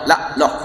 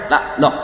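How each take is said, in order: First: The phrase is clipped to two short syllables. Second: The phrase is clipped to two short syllables.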